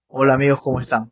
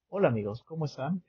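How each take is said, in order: First: It is said in a projected, announcer-like voice. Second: It is said in a plain, everyday voice.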